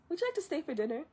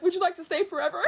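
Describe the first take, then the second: First: Softer, higher polite question; polite invitation. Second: High, rushed, excited question; overeager grandma. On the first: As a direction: ask it lightly, voice lifted and soft. Mulan's polite invitation acted. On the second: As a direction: blurt it out like an eager grandma. Grandma's overeager invitation acted. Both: Retold or imitated.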